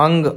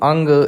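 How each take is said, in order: First: The nasal sound comes before the g. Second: The same.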